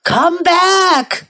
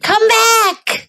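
First: High call, a little less shrieky. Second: High-pitched story call. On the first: Old man calls the runaway back, raised-pitch cry. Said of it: "cried the little old man". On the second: Old woman calls the runaway back, very high cry. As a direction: call after him in a high voice. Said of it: "cried the little old woman". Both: A narrator's reading.

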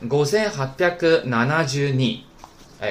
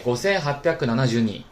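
First: 五千八百七十 二 in Japanese, "gosen happyaku nanajū ni", drawn out part by part; linked up slowly. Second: 五千八百七十二 in Japanese, "gosen happyaku nanajū ni", in one quicker run; linked up smoothly. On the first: Teacher links the parts for students, 五千八百七十 二 slowly in Japanese. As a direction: slowly join each piece of 五千八百七十 二 in Japanese. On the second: Teacher recaps the whole number, 五千八百七十二 linked smoothly in Japanese. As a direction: run 五千八百七十二 together in Japanese without stretching. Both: Shown as a demonstration. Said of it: "连起来".

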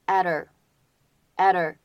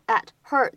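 First: "at her" as adder, h dropped and t flapped; flapped and linked. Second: Said in the usual way. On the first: Shown as a demonstration. Teacher showing American linking, "at her" flapped into adder. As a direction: drop the h in "at her" and tap the t. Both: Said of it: "还可以有一个闪音的处理".

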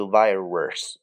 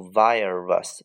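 First: Virus with an added "er" sound in the last syllable; wrong pronunciation. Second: Virus ending in a plain -rus, no r-colouring; correct pronunciation. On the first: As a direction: mispronounce "virus" with an r-coloured ending. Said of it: "不读virus啊，没有儿". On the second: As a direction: say "virus" with no "er" sound in the last syllable. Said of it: "记住这个单词的发音读virus". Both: Shown as a demonstration.

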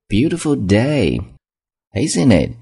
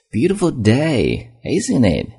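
First: A little less lifted repeat, Beautiful drawn out slowly; friendly small-talk tone. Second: Bright high friendly opener, slow on Beautiful; friendly small-talk tone. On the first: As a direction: say it again, slow and friendly. (再说一遍，语气友好，Beautiful 放慢) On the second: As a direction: chat up a stranger, lifting Beautiful high. (像跟陌生人搭话一样，Beautiful 抬高拉长) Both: Shown as a demonstration. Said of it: "这种语气很重要".

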